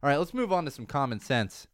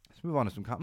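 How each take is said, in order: First: Said in the usual way. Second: Hoarse, voice cracking mid-phrase; voice catching. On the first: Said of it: "a little catch in my throat". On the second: Real, not acted. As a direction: catch in the throat, voice failing. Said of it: "I've got, like, a little catch in my throat".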